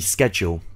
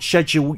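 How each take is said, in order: First: The word begins with an sk sound. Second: The word begins with an sh sound. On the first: "But the noun, a schedule, she said schedule" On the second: "So for the verb, to schedule you in, she dropped the C"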